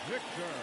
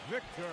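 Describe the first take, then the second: Both takes have the same delivery.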